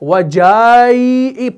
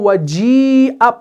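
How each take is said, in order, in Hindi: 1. 'j' के बाद लंबा 'a' स्वर बोला जाता है। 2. 'j' के बाद कोई लंबा 'a' स्वर नहीं बोला जाता। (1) "आप इसको वजाई पढ़ के नहीं पढ़ते" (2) "बल्कि आप इसको वजीअ पढ़ रहे हैं"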